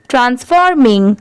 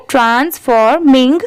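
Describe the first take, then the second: First: Said in the usual way. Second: ट्रांसफॉर्मिंग in three parts, trans-for-ming; broken into parts. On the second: Shown as a demonstration. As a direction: sound out ट्रांसफॉर्मिंग part by part. (ट्रांसफॉर्मिंग को तीन हिस्सों में जोड़कर पढ़ें) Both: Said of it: "इन तीनों को मिला देंगे".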